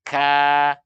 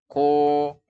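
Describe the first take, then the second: First: The vowel is open and light. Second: The vowel is rounded and heavy. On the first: The speaker calls it right. "buka mulut" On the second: The speaker calls it wrong. "Jangan ko"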